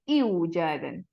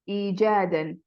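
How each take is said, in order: First: The word starts with an 'iw' glide sound. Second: The word starts with a plain 'ee' vowel. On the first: The speaker calls it wrong. "We don't say iujadan" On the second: The speaker calls it right. "it becomes e"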